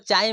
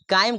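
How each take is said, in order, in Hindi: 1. यह शब्द ch ध्वनि से शुरू होता है। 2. यह शब्द k ध्वनि से शुरू होता है। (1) "चाइम भी कहेगा" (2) "काइम को चाइम भी कहेगा"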